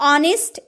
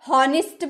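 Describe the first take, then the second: First: It begins directly with a vowel sound. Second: It begins with an 'h' sound. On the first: The speaker calls it right. "वो हमेशा silent रहता है" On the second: The speaker calls it wrong. "आपने कभी हॉनेस्ट बोला है?"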